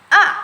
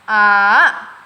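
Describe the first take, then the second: First: The tone is very short and clipped. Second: The pitch dips down then rises. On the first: "ini nada paling singkat atau titik" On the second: "nada disco bisa disebut atau turun naik"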